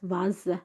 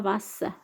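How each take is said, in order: First: The middle consonant is a buzzing z sound. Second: The middle consonant is a hissing s sound. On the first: The speaker calls it right. "se prononce comme Z parce qu'il est entre deux voyelles" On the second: The speaker calls it wrong. "c'est pas vase"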